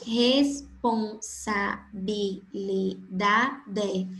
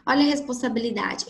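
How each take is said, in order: First: Very slow, syllables pulled apart. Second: Said in the usual way. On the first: Shown as a demonstration. Teacher breaking a long word into syllables, very slow. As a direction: stretch Responsabilidade into its seven syllables. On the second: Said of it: "possui sete sílabas".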